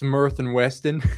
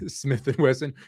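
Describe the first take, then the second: First: The first word sounds like smurf. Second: The first word sounds like smith. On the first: The speaker calls it wrong. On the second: The speaker calls it right.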